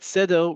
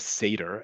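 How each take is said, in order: First: It is said with an Israeli Hebrew accent. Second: It is said with an American English accent.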